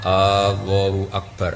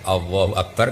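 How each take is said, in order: First: The opening vowel is drawn out long. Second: The opening vowel is short. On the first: It asks whether God is the greatest. The speaker calls it wrong. "A-nya kepanjangan karena nanti jadi istifham" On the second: It states that God is the greatest. The speaker calls it right. "jelas itu kalam khobar"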